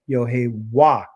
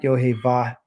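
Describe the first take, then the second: First: The middle consonant is a W sound. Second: The middle consonant is a V sound. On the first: The speaker calls it right. "it's Yohewah. That should be a W" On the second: The speaker calls it wrong. "changed the W ... to a V sound ... it's not Yohevah"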